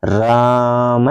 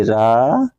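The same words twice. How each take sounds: First: Chanted, stretch राम very slowly like a mantra; chanted, hold the आ of राम long and even; prolonged chant. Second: रा with a quick short vowel; short sound. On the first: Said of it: "मंत्र का उच्चारण करते हैं, क्या बोलते हैं?". (chanted, राम को बहुत लंबा खींचकर बोलें) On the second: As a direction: say रा short and clipped, not held. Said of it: "इसको हम अल्प वर्ण कहते हैं". (रा को छोटा, जल्दी बोलें) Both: Shown as a demonstration.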